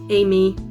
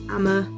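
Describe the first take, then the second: First: The name is said as two syllables, 'Amy'. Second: The name is said as two syllables, 'Amma'. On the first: "Amy is the um, obvious one" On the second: "but also Amma"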